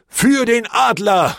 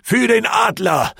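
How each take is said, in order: First: Put-on slow, high, loud echoing yell from an old man; shouted battle cry. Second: Wild shouted battle cry, high and loud; war cry from the narrator himself. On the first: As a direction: bellow it back like a grey-haired veteran joining in. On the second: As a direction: roar it as you charge in. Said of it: "mit einem wilden Schrei". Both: A narrator's reading.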